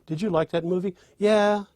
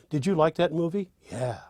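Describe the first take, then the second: First: Eager rising yeah. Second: Said in the usual way. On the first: Shown as a demonstration. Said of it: "you know what the answer is". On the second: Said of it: "Once you say, "Yeah," you know".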